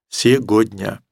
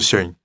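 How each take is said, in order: First: Every sound of the word is pronounced. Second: Most sounds of the word are dropped. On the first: "который бы произнес все это слово целиком" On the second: "а может быть, даже сегодня"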